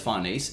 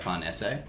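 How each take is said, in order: First: It is said with a common English pronunciation. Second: It is said with an Italian pronunciation. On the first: The speaker calls it wrong. "Everyone says Farnese, even though it's the wrong way to say it" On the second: The speaker calls it right. "It's meant to be Italian, it's like Farnese"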